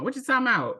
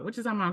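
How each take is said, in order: First: It is said in an Atlanta accent. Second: It is said in her normal voice.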